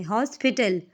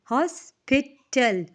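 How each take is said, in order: First: Said in the usual way. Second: हॉस्पिटल slowly broken, हॉस - पि - टल; syllable by syllable. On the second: Shown as a demonstration. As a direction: say हॉस्पिटल in three separate beats. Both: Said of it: "तोड़ के उस word को आप pronounce".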